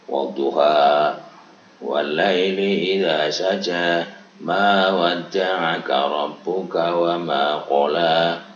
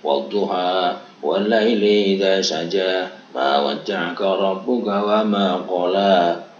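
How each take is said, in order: First: It is recited at a slower pace. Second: It is recited at a faster pace.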